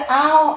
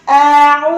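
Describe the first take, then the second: First: The vowel is said with lips only half rounded. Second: The vowel is said with lips fully rounded. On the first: The speaker calls it wrong. "Kalau cuma setengah, terjadi a'udzu bil au" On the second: The speaker calls it right.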